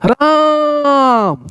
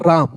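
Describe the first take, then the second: First: It is called out, with a drawn-out vowel. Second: It is said plainly, with a short vowel.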